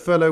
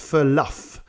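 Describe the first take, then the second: First: The word ends with an open o sound. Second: The word ends with an f sound. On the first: "Who thought the word furlough was pronounced furluff?" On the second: "so I thought it was furluff"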